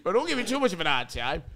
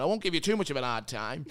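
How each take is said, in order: First: Boss imitation. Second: Said in the usual way. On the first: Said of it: "that's how he said it". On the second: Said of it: "That's how he said it".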